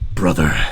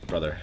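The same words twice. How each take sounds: First: It is said in an intense put-on voice. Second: It is said in a plain voice.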